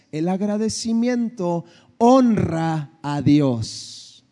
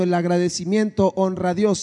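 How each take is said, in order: First: Slow sermon line, leaning on "honra"; slow emphatic point. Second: Said in the usual way. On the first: Acted. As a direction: drive home each word of "el agradecimiento honra a Dios". Preacher's point announced slowly.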